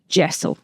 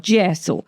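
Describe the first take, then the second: First: It is said with a plain English accent. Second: It is said with an Italian accent.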